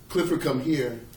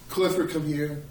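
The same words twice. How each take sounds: First: The call sounds stern and angry. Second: The call sounds urgent and needy.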